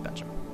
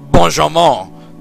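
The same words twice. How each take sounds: First: The name is said with a plain English accent. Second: The name is said with a French accent. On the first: The speaker calls it right. "It's just Benjamin" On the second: The speaker calls it wrong. "I just wanted to say it like a Frenchman"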